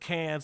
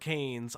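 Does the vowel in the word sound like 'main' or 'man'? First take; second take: man; main. First: The vowel sounds like the one in 'man'. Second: The vowel sounds like the one in 'main'. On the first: The speaker calls it right. "I know it's the Cans" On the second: The speaker calls it wrong. "not the Canes"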